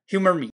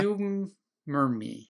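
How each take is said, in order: First: It is said fast, run together. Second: It is said slowly, as two separate names.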